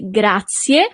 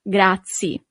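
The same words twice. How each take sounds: First: The final vowel sound is clearly pronounced. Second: The final vowel sound is dropped. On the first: The speaker calls it right. "you really need to pronounce the last letter" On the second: The speaker calls it wrong. "and not grazie"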